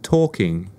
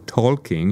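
First: The L sound is silent. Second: The L sound is pronounced. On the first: The speaker calls it right. "the L is silent" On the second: The speaker calls it wrong. "instead of saying walking or talking"

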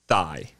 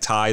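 First: The word begins with a th sound. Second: The word begins with a plain t sound. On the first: It sounds like the word for the leg. "He apparently pronounces it Thai, right? T-H-I-G-H" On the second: It names the food. "Like Thai, like Thai food, T-H-A-I"

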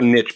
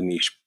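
First: The word has a short vowel, rhyming with 'itch'. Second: The word has a long vowel, rhyming with 'leash'. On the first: The speaker calls it right. "We're a niche podcast ... because there's riches and niches" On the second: The speaker calls it wrong. "not a niche podcast"

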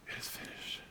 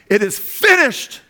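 First: The phrase is spoken in a quiet whisper. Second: The phrase is loudly exclaimed with force. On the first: The speaker was weak and had no strength left. The speaker calls it wrong. "it was like a whisper" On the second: The speaker was declaring triumph and victory. The speaker calls it right. "to exclaim triumphantly"

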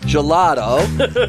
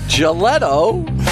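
First: The word is pronounced in the usual standard way. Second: The word is pronounced in a distorted, nonstandard way. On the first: This is how the word should be said. The speaker calls it right. "instead of" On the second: This is how someone else mispronounced it. The speaker calls it wrong. "We have Gelato instead of"

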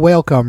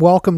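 First: It is said split into two parts. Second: It is said smoothly as one word.

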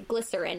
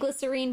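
First: The word is said the American way. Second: The word is said the New Zealand way. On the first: "but in America we say glycerin" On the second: "maybe you Kiwis say glycerine"

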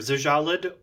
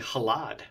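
First: The name starts with a non-H consonant sound. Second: The name starts with an H sound. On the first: "Either Zjallad" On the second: "because both X and J can sometimes be H's phonetically, it might just be Halad"

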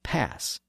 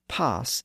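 First: The vowel is the higher, front a sound. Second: The vowel is the lower, back ah sound. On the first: This is how most other English speakers say it. "instead of pass" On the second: This is how it is said in southern England. "and pass"

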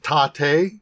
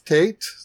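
First: The word is said with Japanese pronunciation. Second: The word is said with English pronunciation. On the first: The speaker calls it right. "it's pronounced Tate" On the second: The speaker calls it wrong. "not Tate"

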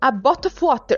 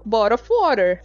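First: It is said in an Irish English accent. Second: It is said in an American English accent.

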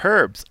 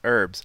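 First: It is said the British way, with an H. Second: It is said the American way, with no H.

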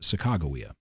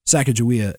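First: The name is said the more accurate way. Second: The name is said the commonly taught way. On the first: This is closer to the original pronunciation. The speaker calls it right. "more accurately pronounced" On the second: This is the version commonly taught in schools. The speaker calls it wrong. "how I learned to pronounce it in school"

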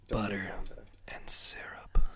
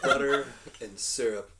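First: It is whispered close to the microphone. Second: It is spoken in a normal voice.

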